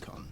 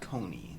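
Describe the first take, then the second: First: The name ends without a final ee sound. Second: The name sounds like Coney, ending in ee. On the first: The speaker calls it right. "it's actually pronounced Kon" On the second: The speaker calls it wrong. "it's not Kony. It's not Coney Island"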